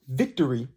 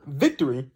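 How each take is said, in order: First: Said in the usual way. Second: Victory said bright and lifted; high pitch. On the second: Shown as a demonstration. Host showing listeners a positive word, lifted pitch. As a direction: make Victory sound positive and up. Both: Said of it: "high pitch".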